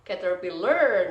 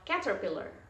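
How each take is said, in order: First: The stress is not on the first syllable. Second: The stress is on the first syllable. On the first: The speaker calls it wrong. "atau caterpillar" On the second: The speaker calls it right. "kalau ini di ca berarti bacanya adalah caterpillar"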